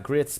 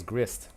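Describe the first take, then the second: First: Grits said with the t before the s; not grist but grits, ending on ts; wrong word grits. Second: Grist said slowly, ending on st; slow and careful, grist not grits; correct word grist. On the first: Teacher contrasting grits with grist, saying grits. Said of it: "but it says grist". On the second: Teacher correcting grits, stressing grist slowly. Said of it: "And it's not grits". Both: Shown as a demonstration.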